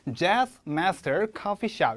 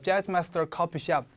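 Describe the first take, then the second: First: Each word is said separately, like staccato. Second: The words run together without breaks. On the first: The speaker calls it right. "음악 기호 스타카토처럼 Jazz Master Coffee Shop 이런 식으로" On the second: The speaker calls it wrong. "너무 붙여서 Jazz Master Coffee Shop 조금 그래요"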